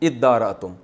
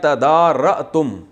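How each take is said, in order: First: The word begins with 'id' and a doubled 'd'. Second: The word begins with a separate 'ta' syllable.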